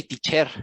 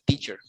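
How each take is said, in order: First: "teacher" with the stress wrongly on CHER; wrong final stress. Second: "teacher" stressed on TEA, second syllable weak; stress on first syllable. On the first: Tutor shows what you don't say, teacher stressed on CHER. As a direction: push the second syllable of "teacher": tea-CHER. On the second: Tutor corrects to teacher, stress on TEA. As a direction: hit TEA in "teacher" and drop the ending. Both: Shown as a demonstration. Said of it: "You don't say teacher".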